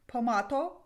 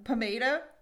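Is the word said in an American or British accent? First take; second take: British; American. First: It is said in a British accent. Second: It is said in an American accent.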